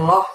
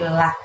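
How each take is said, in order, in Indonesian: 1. Vokalnya gelap dan membulat, seperti o. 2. Vokalnya ringan dan terbuka, seperti a. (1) "bukan loh" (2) "dibacanya tipis"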